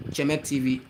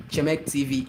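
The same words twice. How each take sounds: The two takes are said the same way.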